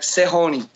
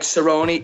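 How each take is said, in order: First: The name is said with a Brazilian-style H-like R. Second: The name is said with an English-style R sound. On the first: "they would pronounce it like Serrone" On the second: "a Brazilian wouldn't pronounce it like Cerrone"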